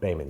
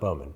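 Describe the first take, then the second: First: The first vowel sounds like 'bay'. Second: The first vowel sounds like 'bow'. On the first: The speaker calls it right. "You told me how to say it right" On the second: The speaker calls it wrong. "not Bowman"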